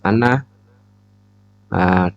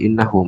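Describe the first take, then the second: First: The word begins with an 'a' vowel. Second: The word begins with an 'i' vowel. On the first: It gives the reason for what came before. "di fathah uh, hamzahnya" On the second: It starts a new statement. "hamzahnya dikasrah menjadi innahu"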